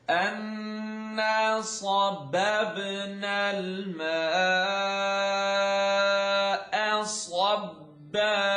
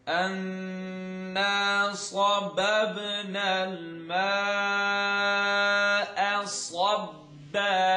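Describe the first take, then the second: The two takes are said the same way.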